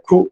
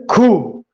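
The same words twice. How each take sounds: First: ਖੂਹ said short and level, the way people here say it; local khooh. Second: ਖੂਹ drawn out slowly with its full tone; full standard khooh. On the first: Teacher shows students the local ਖੂਹ. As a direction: give ਖੂਹ the plain local sound. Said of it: "ਇਕੱਲਾ ਖੂਹ ਕਹਿ ਦਿੰਦੇ ਆ". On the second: Teacher contrasts a slow full ਖੂਹ for students. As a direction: stretch ਖੂਹ out with a full tonal sound. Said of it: "ਵੈਸੇ ਖੂਹ". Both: Shown as a demonstration.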